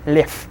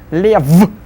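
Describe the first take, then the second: First: The final consonant is voiceless. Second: The final consonant is voiced. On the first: The speaker calls it right. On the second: The speaker calls it wrong.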